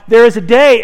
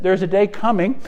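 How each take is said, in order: First: Booming proclamation of the day, louder; proclaiming loudly. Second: Said in the usual way. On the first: Acted. Preacher to congregation, voicing Jesus, loud proclamation. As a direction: ring it out like a prophecy.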